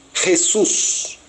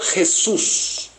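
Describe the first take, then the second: Both takes have the same delivery.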